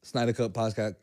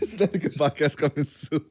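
First: Said in the usual way. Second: Cracking up mid-announcement; laughing. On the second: Shown as a demonstration. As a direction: fake promo read breaking into laughter. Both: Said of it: "I couldn't even say with a straight face".

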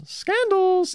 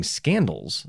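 First: Scandals in a very high falsetto; drawn-out, teasing high-pitched scandals; falsetto echo. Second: Said in the usual way. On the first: Pretend. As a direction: sing out SCANDALS way up high, playfully. Playful echo of the word.

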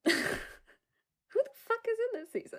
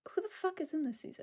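First: Laughing repeat. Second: Fast muttered question. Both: Real, not acted.

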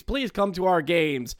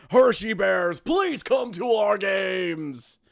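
First: Said in the usual way. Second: Slow, drawn-out shouted plea; slow, loud begging call; pleading shout. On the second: Pretend. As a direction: beg the crowd at the top of your voice. Begging fans to attend.

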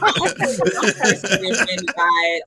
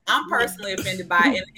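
First: Slow, laughing fake outrage; laughing mock offense. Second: Said in the usual way. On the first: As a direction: play offended while cracking up. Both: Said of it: "In, in a serious note".

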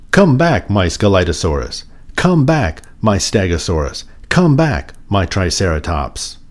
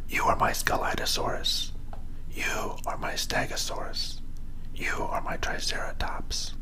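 First: Calling out. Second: Hushed, fully whispered naming. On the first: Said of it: "He called". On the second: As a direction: whisper it softly, like a secret to each toy. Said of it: "He whispered to each one". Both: A narrator's reading.

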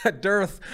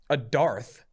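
First: Dearth said like "durth"; corrected dearth. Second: Dearth said like "darth"; mispronounced dearth. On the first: Podcaster corrected by co-host, "dearth" now rhyming with earth. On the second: Podcaster unsure of a word, "dearth" mispronounced as "darth". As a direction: say "dearth" with an open AR vowel, as in dark. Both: Real, not acted. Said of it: "is that dearth?".

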